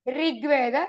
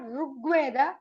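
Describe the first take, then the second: First: The r carries an in-between vowel, not u. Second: The r is followed by a clear u vowel. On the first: The speaker calls it right. "It is in between" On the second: The speaker calls it wrong. "It's not Rugveda"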